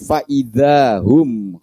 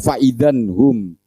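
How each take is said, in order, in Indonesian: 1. Tidak ada bunyi n terdengar sebelum 'hum'. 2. Bunyi n terdengar sebelum 'hum'. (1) "diselaraskan, diharmonikan oleh Allah menjadi faida hum khamidun" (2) "Kalau misalnya dibaca faidan hum, kan tidak enak"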